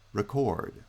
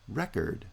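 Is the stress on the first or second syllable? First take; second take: second; first. First: The stress is on the second syllable. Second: The stress is on the first syllable. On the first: It is used as a verb. "noun-verb pairs" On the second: It is used as a noun. "noun-verb pairs"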